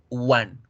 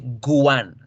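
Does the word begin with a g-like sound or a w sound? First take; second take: w sound; g sound. First: The word begins with a pure u sound. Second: The word begins with a g-like sound. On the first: The speaker calls it right. "se dice u" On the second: The speaker calls it wrong. "no se dice guan"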